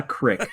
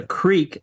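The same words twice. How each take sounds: First: "crick" with a short I; short vowel. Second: "creek" with a long EE; long vowel. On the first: Rejecting that pronunciation, short I. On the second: Answering the pronunciation question, long EE. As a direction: stretch the EE in "creek". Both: Shown as a demonstration.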